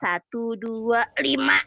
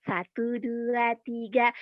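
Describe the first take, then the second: First: Said in the usual way. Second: Slow counting; slow careful count. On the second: Shown as a demonstration. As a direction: count slowly, each number apart. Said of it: "tiga gitu".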